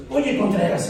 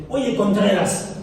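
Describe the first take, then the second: First: Oye, Contreras with the stress on Oye and a falling end; mildly imitating a cross wife calling his surname; annoyed wife. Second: Slow, drawn-out Oye, Contreras with the stress on Oye and a falling end; mildly imitating a cross wife, slow and a bit louder; annoyed wife. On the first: Pastor retells his wife scolding him by surname. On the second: Pastor imitates his annoyed wife calling him by surname. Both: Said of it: "me dice así cuando está enojada".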